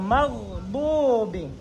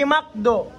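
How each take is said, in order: First: The middle consonant is a rasping sound from the throat. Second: The middle consonant is a hard k sound. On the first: The speaker calls it right. "dumadaan sa lalamunan" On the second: The speaker calls it wrong. "Hindi makdo"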